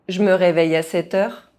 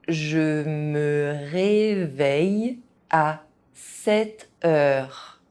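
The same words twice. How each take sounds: First: It is said fast, with some sounds dropped. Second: It is said at an ordinary speaking pace. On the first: This is how native speakers say it. "fast, as a native speaker would do" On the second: This is the pace learners should use. "at a normal pace"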